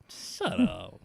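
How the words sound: It is said in a nicer, gentler tone.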